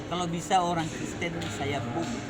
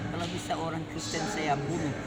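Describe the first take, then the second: No difference in how they are said.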